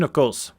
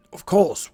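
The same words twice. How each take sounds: First: "of course" in a light Scottish lilt, falling; Scottish villager's aside; Scottish accent. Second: "Of course" high and strained, falling; a creaky old sage; old wizard voice. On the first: Cillian's aside to the party, Scottish accent. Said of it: "my attempted Scottish accent". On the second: Merlin explaining the ritual to the party, old wizard voice. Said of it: "the voice that I'm giving him". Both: Acted.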